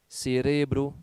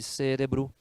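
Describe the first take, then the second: First: The word carries the Spanish stress placement. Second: The word carries the Portuguese stress placement. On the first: "algumas palavras em espanhol" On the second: "no lugar de"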